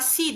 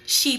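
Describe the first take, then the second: First: It begins with a plain s sound. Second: It begins with an sh sound. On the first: The speaker calls it wrong. "kung babasahin natin, baka si, di ba? Hindi po" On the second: The speaker calls it right. "She po yan"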